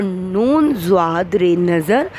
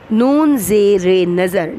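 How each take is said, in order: First: "نون زواد رے نظر" spelled out slowly, letter by letter; slow spelling. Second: "نون زیر نظر" spelled out slowly, each letter name separate; slow spelling. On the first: Teacher slowly spells the second word for students. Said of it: "اور نون زواد رے نظر". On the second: Teacher slowly spells the word for young students. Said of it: "ہمارا اگلا لفظ ہے نظر". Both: Shown as a demonstration.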